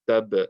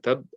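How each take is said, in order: First: The final b is released with a slight echo. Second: The final b stops completely with no release. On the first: The speaker calls it right. "so for the ba, it will sound like this" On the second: The speaker calls it wrong. "instead of saying tab"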